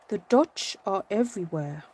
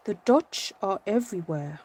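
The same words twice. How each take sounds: First: It is said in a put-on Dutch accent. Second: The same.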